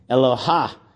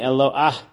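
First: The word ends with an 'h' then 'a' sound. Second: The word ends with a separate 'ah' vowel sound. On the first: The speaker calls it wrong. "people pronounce it with the hey at the end as if it's Eloha" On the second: The speaker calls it right. "we say Milifnei Adon Chuli Aretz, Milifnei Elo Ah Yaakov"

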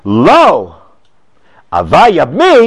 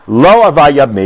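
First: There is a pause right after lo. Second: Lo runs straight into ava without a pause. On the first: No, he does want to marry her. "where you put the comma makes a very big difference" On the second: He does not want to marry her. "connects the lo with the ava"

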